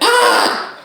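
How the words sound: It is a cry of pain.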